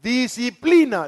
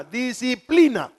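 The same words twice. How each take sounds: First: Disciplina drawn out slow and raised; slow emphasis. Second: Disciplina repeated, slow and raised again; repeated slow emphasis. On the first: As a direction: lean on disciplina, slowly and higher. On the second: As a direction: hammer disciplina home a second time. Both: Shown as a demonstration. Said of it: "es decir".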